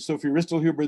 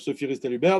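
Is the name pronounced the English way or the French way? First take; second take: English; French. First: The name is said with an English pronunciation. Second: The name is said with a French pronunciation. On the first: "accepted pronunciation in English and even in German" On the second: "That's how you pronounce her name in French"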